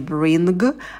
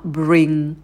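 First: It ends with an audible g sound. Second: It ends in a nasal without any g. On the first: The speaker calls it wrong. "звука «г» быть не должно, то есть это не «bring»" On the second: The speaker calls it right. "а «bring»"

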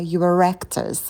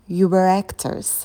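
First: An r sound links were smoothly into actors. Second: Were and actors are said without a linking r.

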